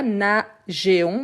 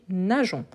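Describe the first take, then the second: First: "nageons" slowly split as na-zhé-on; e wrongly sounded. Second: "nageons" in two syllables, na-zhon; silent e in nageons. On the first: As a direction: break "nageons" into three, sounding the silent e. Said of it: "On ne dit pas nageons". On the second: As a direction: say "nageons" with zh and no e heard. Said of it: "mais on dit nageons". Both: Shown as a demonstration.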